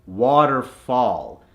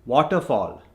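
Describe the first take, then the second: First: Waterfall slowed, "ah" in both halves; American accent. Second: Waterfall with rounded "o" vowels; Indian accent. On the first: Coach gives the double example converted, American accent. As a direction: say "waterfall" American, as "wah-ter-fahl". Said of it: "The A H is in water". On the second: Coach gives the double example, Indian accent. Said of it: "from the Indian accent". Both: Shown as a demonstration.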